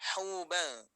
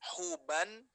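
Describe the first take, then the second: First: The n sound is hidden in a nasal hum. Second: The n sound is pronounced clearly and fully. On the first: The speaker calls it right. "harus kita dengungkan, harus kita samarkan" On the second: The speaker calls it wrong. "bukan huban"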